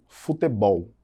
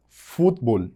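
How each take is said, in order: First: "futebol" slowly as Portuguese fu-te-BOL; Portuguese "futebol", three syllables, strong ending; stress on last syllable. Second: "futebol" as two-syllable Spanish FUT-bol; strong FUT at the start of "futebol", no middle e; stress on first syllable. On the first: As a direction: land on the final BOL of "futebol". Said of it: "lá no final da palavra". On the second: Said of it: "eu tenho fut lá em cima". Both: Shown as a demonstration.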